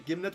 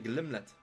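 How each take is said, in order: First: The name begins with gim, without an l. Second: The name begins with glim, with an l. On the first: The speaker calls it wrong. "I have been mispronouncing the name the entire time" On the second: The speaker calls it right. "we want the Glimlet"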